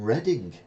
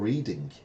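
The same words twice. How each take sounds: First: It is said like the town's name. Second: It is said like the verb reading. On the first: The speaker calls it right. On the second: The speaker calls it wrong.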